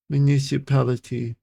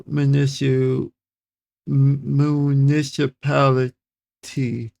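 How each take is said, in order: First: Said in the usual way. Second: MUNICIPALITY slow, broken before the last syllable; sounding out. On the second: Real, not acted. Reader beating a tongue twister, slowly sounding out municipality. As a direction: work slowly through "municipality" in pieces. Sounding out, then saying fluently.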